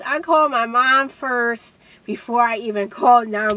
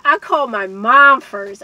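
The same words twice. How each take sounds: First: Said in the usual way. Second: Loud emphatic. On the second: Real, not acted. Emphatic repeat.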